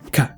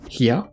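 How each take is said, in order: First: It begins with a k sound. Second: It begins with an h sound. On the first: "realized as a K sound" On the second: "the sequence he"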